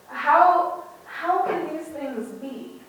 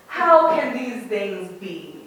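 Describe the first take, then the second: First: The question sounds hopeful, worried and vulnerable. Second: The question sounds sarcastic and skeptical. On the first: The asker sincerely hopes for an answer. "Suddenly I hear Nicodemus with vulnerability" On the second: The asker doubts and mocks the idea. "I read them as sarcastic"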